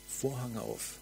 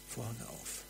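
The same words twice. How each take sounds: First: Said in the usual way. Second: "Vorhang auf" whispered, much softer. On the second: Acted. Preacher inviting listeners into glory, whispered.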